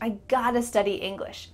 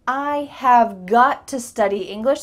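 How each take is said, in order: First: 'Have got to' is shortened to 'gotta'. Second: Every word of 'have got to' is said fully. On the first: "That can be reduced to" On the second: "This is really strong"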